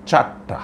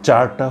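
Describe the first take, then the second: First: চারটা slurred into চার্রা, the ট swallowed; slurred mispronunciation. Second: চারটা said clearly, টা sharp and full; careful demo word. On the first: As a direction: let the ট in চারটা melt into র. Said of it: "চারটা হয়ে যাচ্ছে". (চারটা জড়িয়ে ভুল উচ্চারণ) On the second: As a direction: stress the hard টা in চারটা. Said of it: "আপনি একটু চেষ্টা করে দেখুন". (চারটা স্পষ্ট করে বলা) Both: Shown as a demonstration.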